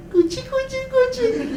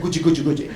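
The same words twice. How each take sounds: First: Put-on very high sing-song baby talk. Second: Said in the usual way. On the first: Shown as a demonstration. A lecturer cooing to an imagined baby in very high baby talk. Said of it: "when you do things like". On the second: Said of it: "the baby doesn't understand".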